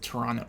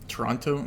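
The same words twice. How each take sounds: First: The second T sound is dropped. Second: The second T sound is clearly pronounced.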